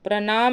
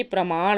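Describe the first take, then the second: First: प्रणाम with n before the final m; wrong form. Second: प्रमाण ending in retroflex ṇ; m first, curled n last in प्रमाण; correct form. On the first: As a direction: say प्रणाम as "pranaam". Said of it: "प्रणाम नहीं होता है". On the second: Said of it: "बल्कि प्रमाण होता". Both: Shown as a demonstration.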